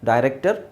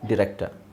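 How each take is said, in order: First: The first syllable has the vowel 'die'. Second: The first syllable has the vowel 'dih'. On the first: "ಎರಡು ಥರ ಹೇಳ್ತಾರೆ" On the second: "ಎರಡು ಥರ ಹೇಳ್ತಾರೆ"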